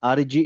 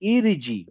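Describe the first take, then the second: First: The word begins with an 'a' vowel. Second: The word begins with an 'i' vowel. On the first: The speaker calls it wrong. "আর জি এ হবে?" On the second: The speaker calls it right. "তাহলে এটা হবে হচ্ছে ইরিজি"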